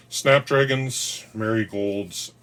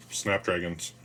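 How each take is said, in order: First: Snapdragons stretched slow, much higher and louder; drawn-out excited. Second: Said in the usual way. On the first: Real, not acted. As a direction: draw out snapdragons slowly, high and loud. Names favourite flower with delight.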